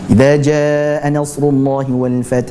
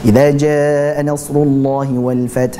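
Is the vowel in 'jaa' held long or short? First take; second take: long; long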